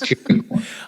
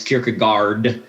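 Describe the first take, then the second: First: The final d is silent. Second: The final d is pronounced. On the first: The speaker calls it right. "in Danish we don't pronounce the D, and it's the A A R is or" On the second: The speaker calls it wrong. "people always pronounce it wrong as"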